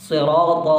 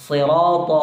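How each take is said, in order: The two takes are said the same way.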